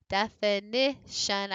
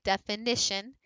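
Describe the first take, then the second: First: Definition slowly, def-i-NI-tion, rising on NI; slow, spelled-out definition with NI stressed; syllable-by-syllable stress demo. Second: Said in the usual way. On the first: Shown as a demonstration. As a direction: break definition into syllables, lifting NI. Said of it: "we might drop in the middle".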